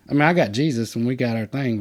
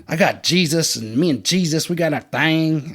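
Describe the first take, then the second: First: Said in the usual way. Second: Haughty. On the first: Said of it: "I don't do all that". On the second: Retold or imitated. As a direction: imitate a smug self-righteous convert. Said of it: "he was just real haughty".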